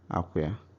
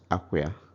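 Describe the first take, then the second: The two takes are said the same way.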